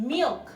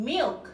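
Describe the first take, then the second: The two takes are said the same way.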